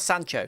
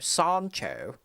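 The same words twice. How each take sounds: First: It is said with an American accent. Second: It is said with a British accent. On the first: The speaker calls it wrong. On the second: The speaker calls it right.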